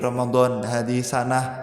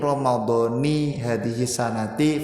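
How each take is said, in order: First: The word ends without any final vowel. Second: The word ends with a short i vowel. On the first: The ending is left off to avoid a grammatical mistake. "cara pengin aman wis disukun ngono wae" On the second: The word is read as the second part of a possessive phrase. "tetap dibaca kasroh"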